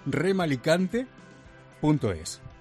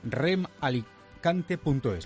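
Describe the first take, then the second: First: The address is said slowly and clearly. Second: The address is said quickly and unclearly. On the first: The speaker calls it right. "lo voy a volver a repetir más despacio" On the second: The speaker calls it wrong. "Lo he dicho fatal"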